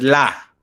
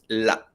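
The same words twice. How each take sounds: First: The vowel ends smoothly with no break. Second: The vowel ends with an abrupt throaty cut. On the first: The speaker calls it wrong. "no es la" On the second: The speaker calls it right. "medio corta la última vocal"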